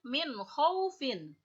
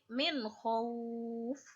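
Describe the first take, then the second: First: The phrase ends with a short -in syllable. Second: The phrase ends on a bare f consonant. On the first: The reading continues into the next word. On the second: The reading stops at this word.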